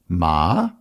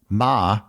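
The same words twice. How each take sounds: First: It is said in the rising second tone. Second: It is said in the high level first tone. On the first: It means hemp. "In the second tone" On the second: It means mother. "In the first tone"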